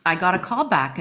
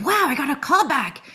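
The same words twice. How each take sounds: First: Said in the usual way. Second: Higher, amazed little gasp of joy; thrilled she got the callback; delighted surprise; excited disbelief. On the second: Retold or imitated. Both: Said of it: "I was like".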